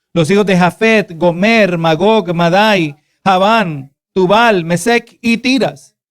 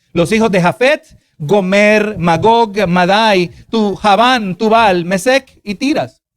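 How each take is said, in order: No difference in how they are said.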